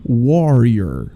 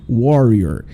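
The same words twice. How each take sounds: The two takes are said the same way.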